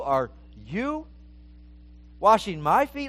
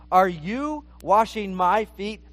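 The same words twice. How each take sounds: First: "you" in "Are you" leaned on with a rising lift; Peter's question with "you" stressed and rising. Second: Said in the usual way. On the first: Shown as a demonstration. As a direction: put the weight on "you", as if shocked it's him. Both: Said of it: "The emphasis on there is on the you".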